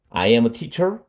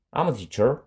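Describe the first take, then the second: First: Said in the usual way. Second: "I'm" squeezed into one quick syllable; teacher shows natives shortening I am to I'm; contracted I'm. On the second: Shown as a demonstration. 선생님이 I am을 I'm으로 줄여 발음하는 시범. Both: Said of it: "이렇게 말-, 말합니다".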